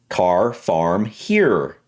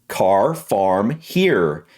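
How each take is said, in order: Both takes have the same delivery.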